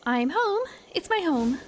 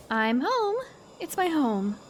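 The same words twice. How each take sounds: First: Higher, lightly put-on insect lady; bee lady voice. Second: A hint of a young girl's voice; lightly voiced girl. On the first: Insect lady arriving home in the fairy realm, higher character voice. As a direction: lift the pitch for the character. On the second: Shown as a demonstration. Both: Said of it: "what kind of voice does she have?".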